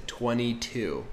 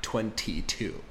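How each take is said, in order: First: "twenty-two" as "twenny-two". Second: "twenty-two" slow with the T; slow careful. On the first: Teacher repeating the mom's natural way. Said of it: "she said". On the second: Teacher showing the form to avoid. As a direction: sound out "twenty-two" slowly, T included. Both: Shown as a demonstration.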